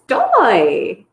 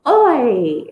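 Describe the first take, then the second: First: The word is said with its first t sound. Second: The word is said without its first t sound. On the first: It models the correct pronunciation. The speaker calls it right. "modeling how you should be pronouncing it" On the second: It is the child's baby-talk version. The speaker calls it wrong. "So it says, oi"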